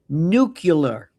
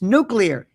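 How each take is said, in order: First: It is said as nu-cu-lar. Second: It is said as nu-clear. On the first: The speaker calls it wrong. "See, he's got me doing it" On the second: The speaker calls it right. "It's nuclear"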